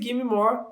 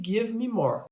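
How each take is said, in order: First: Give and me blend into one reduced word. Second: Give and me are said as two full words. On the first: "esse give me more" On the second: "é a mesma coisa que give me more"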